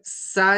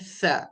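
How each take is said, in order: First: It starts with a plain hissing s sound. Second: It starts with a soft th sound between teeth. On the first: The speaker calls it wrong. "सा नहीं कहना इसे, वो सीन हो जाएगा" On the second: The speaker calls it right. "यह है सा"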